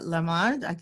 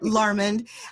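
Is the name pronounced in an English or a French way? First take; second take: French; English. First: The name is pronounced the French way. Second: The name is pronounced the English way.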